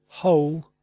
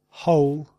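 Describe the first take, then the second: No difference in how they are said.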